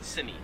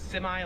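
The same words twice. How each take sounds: First: The word ends with an 'ee' sound. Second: The word ends with an 'eye' sound. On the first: This is the Australian way. "In Australian English, they would pronounce it semi" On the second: This is the American way. "like with the I, we say I at the end"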